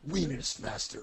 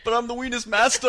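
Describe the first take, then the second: First: Dramatic title read, lightly voiced; B movie title voice. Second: High, loud boastful villain; grand villain voice. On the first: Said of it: "like a title for the ultimate B movie". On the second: Acted. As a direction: announce yourself like a B movie villain. Joking self title.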